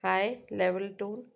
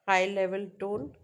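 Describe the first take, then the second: No difference in how they are said.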